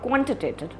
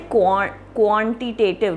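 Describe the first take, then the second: First: The first vowel is kept very short. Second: The first vowel is drawn out long. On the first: The speaker calls it right. "the Q U A is very short" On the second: The speaker calls it wrong. "you don't say it like that"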